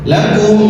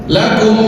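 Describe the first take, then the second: The two takes are said the same way.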